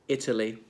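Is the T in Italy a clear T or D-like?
clear T. The T is a clear T sound. "listen to how I say these following words"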